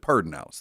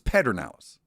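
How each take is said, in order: First: The first syllable has an added R sound. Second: The first syllable has no R sound. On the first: It is how local people said it. The speaker calls it wrong. "everybody I knew always called it Pedernales" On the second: It is how the name is written. The speaker calls it right. "when you read the name of the river, it's Pedernales"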